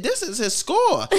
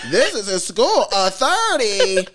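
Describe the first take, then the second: First: "This is his score." slow and higher, falling on "score"; first telling in the strong accent, drawn out; teacher's strong accent. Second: "This is his score." louder, "A thirty." very slow; teacher's strong accent, insisting. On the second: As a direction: repeat it louder in the accent, hammering home "A thirty.". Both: Retold or imitated. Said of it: "he got a strong accent".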